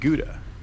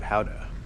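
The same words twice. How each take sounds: First: The name is said with an English pronunciation. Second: The name is said with a Dutch pronunciation.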